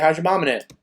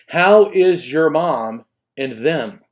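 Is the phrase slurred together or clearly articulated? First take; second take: slurred; articulated. First: The words are run together and reduced. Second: Each word is said fully and distinctly. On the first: The speaker calls it wrong. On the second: The speaker calls it right.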